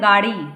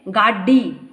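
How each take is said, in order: First: The middle consonant is single and short. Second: The middle consonant is doubled and held long. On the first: This is the standard Hindi way. "मानक हिंदी है गाड़ी" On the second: This is the Western Hindi way. "पश्चिमी हिंदी में गाड़ी ऐसे बोले जाएंगे"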